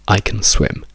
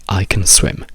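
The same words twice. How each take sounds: Both takes have the same delivery.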